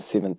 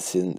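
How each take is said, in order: First: The word seventh is pronounced cleanly and clearly. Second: The word seventh comes out garbled and unclear. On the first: The speaker calls it right. "Let's try that again" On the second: The speaker calls it wrong. "That was a terrible pronunciation of the word seventh"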